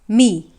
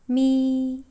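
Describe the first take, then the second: First: The syllable carries the third tone. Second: The syllable carries the first tone. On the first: "the third tone goes like this" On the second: "the first tone sounds in Chinese"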